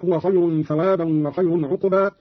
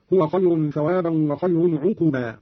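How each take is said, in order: First: Said in the usual way. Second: عقبا with u after q, "ʿuquba"; damma on qaf. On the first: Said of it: "قرأ قالون بضم القاف". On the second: Shown as a demonstration. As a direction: say عقبا in three syllables, ʿu-qu-baa. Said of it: "بضم القاف هكذا".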